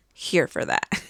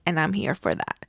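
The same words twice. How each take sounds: First: Breathy whispered repeat of "Here for that"; whispered echo. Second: Said in the usual way. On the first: Real, not acted. Echoing her own approval to viewers, in a soft whisper. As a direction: whisper it back to yourself. Quiet echo of previous line.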